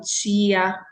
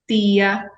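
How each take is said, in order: First: The t is palatalized, sounding like ch. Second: The t is a plain stop before i. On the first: This is how other regions speak. "em outras localidades existe a pronúncia palatalizada, o chiada" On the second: This is the local regional way of speaking. "aqui em Pernambuco, nós pronunciamos"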